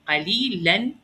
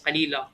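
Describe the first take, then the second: First: The word ends with an n sound. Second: The word ends with a long a vowel. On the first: "see how it added an alif?" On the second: "what I would say is قليلا, just just pronounce the alif"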